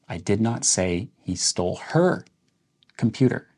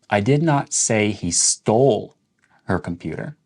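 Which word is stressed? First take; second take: her; stole. First: The word her carries the main stress. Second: The word stole carries the main stress. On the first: He might have stolen someone else's computer. "Let's emphasize the word her" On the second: He might have borrowed or lost it instead. "So that's questioning whether or not he stole it"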